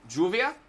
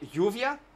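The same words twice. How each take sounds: First: The first sound is a hard j sound. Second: The first sound is a soft y-like sound. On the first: "with a hard J" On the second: "like the double L"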